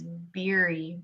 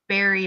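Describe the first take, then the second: First: The first vowel sounds like 'beer'. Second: The first vowel sounds like 'bear'. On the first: This is how the owner says the name. The speaker calls it right. "but it's Beery" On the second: This is how people read the name. The speaker calls it wrong. "Everybody sees my last name is Barry"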